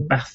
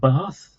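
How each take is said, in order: First: Bath is said with a short northern vowel. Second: Bath is said with a long southern vowel. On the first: This is the local Manchester way. "So I'll say Bath" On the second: This is the precise upper-class way. "instead of Bath"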